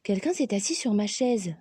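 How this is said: It is said in Mama Bear's elegant voice.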